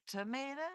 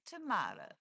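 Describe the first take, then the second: First: "tomato" with an ay in the middle; to-MAY-to pronunciation. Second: "tomato" with a broad ah in the middle; to-MAH-to pronunciation. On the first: Playfully comparing pronunciations with Mike, "tomato" as to-MAY-to. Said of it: "I say tomato". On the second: Playfully comparing pronunciations with Mike, "tomato" as to-MAH-to. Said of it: "you say tomato". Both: Shown as a demonstration.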